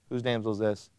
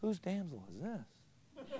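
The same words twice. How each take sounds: First: It is asked in a flat, bland way. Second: It is asked with lively, eager interest.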